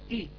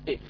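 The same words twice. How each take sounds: First: The vowel is a pure, clear i sound. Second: The vowel is a mixed, impure i sound. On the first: The speaker calls it right. "وكذلك إي الكسرة" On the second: The speaker calls it wrong. "وليست إي"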